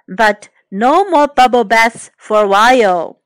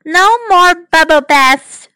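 First: Mother. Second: Put-on high child character voice; Amanda. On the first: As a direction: lay down the rule without raising pitch. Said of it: "said Mother". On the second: Girl repeats Mother's rule to her toy rabbit, high voice. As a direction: pass the rule on in a raised girl's voice. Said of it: "she said". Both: A narrator's reading.

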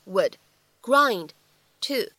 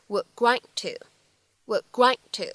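First: "would", "grind", "to", each after a pause; unlinked "would grind to"; words kept apart. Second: "would grind to" joined, both final D sounds unreleased; "would grind to" linked as "wuh' grine' to"; lost plosives. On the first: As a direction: say "would grind to" one word at a time. Separate words before linked demo. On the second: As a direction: hold back the D in "would" and "grind". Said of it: "其中呢会有两处失去爆破". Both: Shown as a demonstration.

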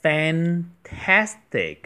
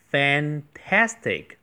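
First: Fantastic slow and a bit higher, a wide open. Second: Fantastic slow, with a wide open a in tas; careful at sound. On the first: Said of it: "蝴蝶音". (放慢读fantastic，发蝴蝶音) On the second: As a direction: stretch the at in fantastic. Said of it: "这里要注意那个at的发音". (慢读fantastic，at发蝴蝶音) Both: Shown as a demonstration.

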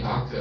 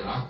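First: 楽 said "gaku", starting on a hard g; gaku for sound. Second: 楽 said "raku", starting on a Japanese r; raku for mood. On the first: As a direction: give 楽 its "gaku" reading. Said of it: "和声音相关的就念". (楽念成gaku，g开头) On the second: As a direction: give 楽 its "raku" reading. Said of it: "和心情相关的就念". (楽念成raku，r开头) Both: Shown as a demonstration.

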